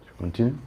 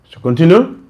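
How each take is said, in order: First: Said in the usual way. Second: Repeated louder and higher, rising. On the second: Real, not acted. Speaker asking the audience again, louder and higher. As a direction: ask again louder when nobody answers.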